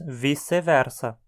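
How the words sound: Portuguese-style, with the c sounding like s. "com pronúncia portuguesada, dizemos"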